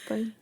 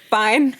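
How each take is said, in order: First: It is said softly. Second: It is said loudly.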